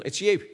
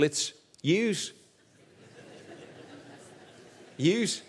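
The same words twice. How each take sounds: First: "you" said plain as the singular; a single plain "you" for one person; Scouse you. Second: "yous" with a z on the end, lifted; Scouse yous. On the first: Preacher showing the Liverpool singular: "you". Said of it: "speaking to somebody in the singular in Liverpool". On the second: Preacher teaching Scouse plural: "yous", ending in z. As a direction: land on the plural "yous" with a buzzing z. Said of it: "speaking to a group of people". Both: Shown as a demonstration.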